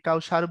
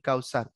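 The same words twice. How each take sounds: First: The middle consonant is a 'sh' sound. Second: The middle consonant is an 's' sound. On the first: The speaker calls it wrong. "আমি কাউসার বলি না" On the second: The speaker calls it right. "স এর মতো হয়"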